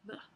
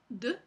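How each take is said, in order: First: The d sound is a soft fricative. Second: The d sound is a full stop closure. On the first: "y un alófono fricativo" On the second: "Hay un alófono oclusivo"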